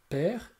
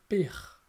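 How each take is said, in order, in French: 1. La voyelle est ouverte, comme è. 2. La voyelle est fermée, comme é. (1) "s'écrit E accent grave" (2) "et non pas E accent aigu"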